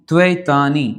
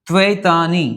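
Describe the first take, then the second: Both takes have the same delivery.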